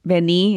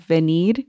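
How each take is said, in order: First: "vení" with the final I stressed. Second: Said in the usual way. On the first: Shown as a demonstration. Co-host explaining accents by example, final stress on "vení". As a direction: land the emphasis on the last vowel of "vení". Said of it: "And the emphasis is on the I". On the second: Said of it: "instead of".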